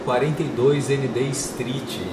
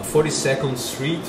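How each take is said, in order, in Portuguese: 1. A rua é lida como português. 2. A rua é lida como inglês.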